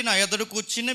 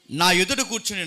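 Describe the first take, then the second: First: నా lifted with a rising tune; నా said with a rising lean; stress on నా. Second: Said in the usual way. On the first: Shown as a demonstration. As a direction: point at the word నా. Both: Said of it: "నా అంటే ఇక్కడ ఎవరో తెలుసా".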